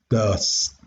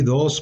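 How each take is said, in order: First: It is said in an affected, posh accent. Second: It is said in a plain, ordinary accent. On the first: "si fuera muy fresa yo lo diría does" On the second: "¿Cómo digo el número dos? Pues así"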